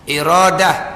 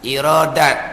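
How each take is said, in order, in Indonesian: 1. Kata itu berakhir dengan bunyi h. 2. Kata itu berakhir dengan bunyi t. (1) "kita akan baca dengan he" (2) "Tapi boleh juga"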